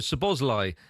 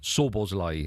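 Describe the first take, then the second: First: The name is said with English-style vowels. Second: The name is said with Hungarian-style vowels. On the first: This is how English speakers say it. "is how we would say it" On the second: This is how it is said in its own language. "is how you'd say it"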